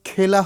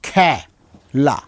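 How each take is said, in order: First: The first vowel sounds like 'e' in 'bed'. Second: The first vowel sounds like 'a' in 'cat'. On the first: This is how the spelling suggests it is read. "খেলা হওয়ার কথা" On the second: This is how the word is actually pronounced. "উচ্চারণটা করছি কি খ্যা লা"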